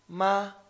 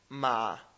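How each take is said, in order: First: The syllable is said with the first tone. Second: The syllable is said with the third tone.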